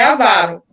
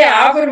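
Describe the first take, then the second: First: Avaro stressed on the middle syllable, aVAro; correct stress. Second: Avaro read with the first syllable strong, Ávaro; the way people read avaro, stressed at the start; wrong stress. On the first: Tutor correcting herself to the group: avaro stressed correctly. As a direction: say avaro with the weight on va. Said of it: "A gente lê avaro". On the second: Tutor correcting herself to the group: avaro read the wrong way. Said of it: "mas é avaro". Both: Shown as a demonstration.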